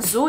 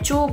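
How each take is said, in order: First: The word begins with a 'z' sound. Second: The word begins with a 'ch'-like sound. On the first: The speaker calls it wrong. "bukan zu" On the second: The speaker calls it right. "Jadi babi dibacanya cu"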